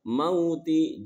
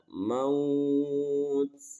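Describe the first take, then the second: First: The word ends with its full vowel ending. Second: The word ends without its final vowel ending. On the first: The reader continues without stopping. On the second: The reader stops at this word.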